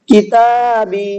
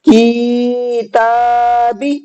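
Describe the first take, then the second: First: The ta and ba syllables are drawn out. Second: The ka and ta syllables are drawn out. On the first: The speaker calls it right. "ता और बा दोनों खींचेंगे, काफ नहीं खींचेगा" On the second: The speaker calls it wrong. "काफ और ता दोनों खींच गए और बा नहीं खींचा"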